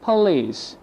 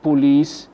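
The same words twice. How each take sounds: First: "police" as puh-LEECE, falling; schwa for O. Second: "police" with a full rounded O in the first syllable; wrong full O. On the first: Teacher gives the correct form, "police" with schwa. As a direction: reduce the O in "police" to uh. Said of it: "The O equal U H". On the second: Teacher shows what not to say, "police" with full O. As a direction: say "police" as poh-leece. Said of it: "Not police". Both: Shown as a demonstration.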